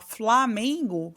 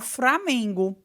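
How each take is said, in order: First: The word begins with an fl sound. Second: The word begins with an fr sound. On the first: "em vez de falar Flamengo" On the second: "falam Framengo"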